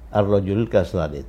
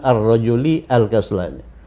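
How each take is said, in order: First: The 'a' of 'al' is dropped, words linked. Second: The 'a' of 'al' is pronounced separately. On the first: The speaker calls it right. "Jadi bacanya ar-rajuli langsung ke sini" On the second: The speaker calls it wrong.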